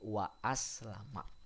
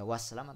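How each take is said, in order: First: The glottal stop is kept before the second word. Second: The glottal stop is dropped, words run together. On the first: The speaker calls it right. "tapi wa aslama" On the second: The speaker calls it wrong. "tidak dibaca waslama"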